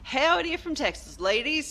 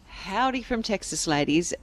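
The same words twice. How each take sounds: First: It is read in a put-on Texan farmer accent. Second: It is read in the speaker's normal voice.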